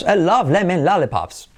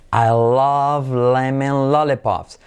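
First: Higher, lively tune on "love lemon lollipops"; natural intonation. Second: Slow, even linking drill; drawn-out, level model for learners; slow model sentence. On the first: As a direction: bounce through "love", "lemon", "lollipops" with peaks. Same sentence, now with intonation. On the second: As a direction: stretch each L in "love lemon lollipops". Slow repetition drill before intonation. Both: Shown as a demonstration.

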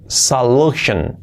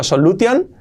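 First: "solution" as sa-LU-shen; slow falling "solution" with sh; correct pronunciation. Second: "solution" as so-lu-TION, rising; higher, hard t in "solution"; wrong Spanish reading. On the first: Teacher models for learners: "solution" as sa-LU-shen. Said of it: "Shan, solution". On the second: Teacher reads the spelling: "solution" as so-lu-tion. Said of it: "Escrito solution". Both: Shown as a demonstration.

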